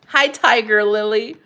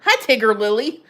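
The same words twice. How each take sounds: First: Louder, slower "Tiger", first vowel like eye; long-i Tiger. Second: "Tigger" rhyming with bigger; short-i Tigger. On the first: Greeting a viewer, correcting to long-i "Tiger". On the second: Greeting a viewer, trying the name as short-i "Tigger". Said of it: "Ti-, Tigger". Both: Real, not acted.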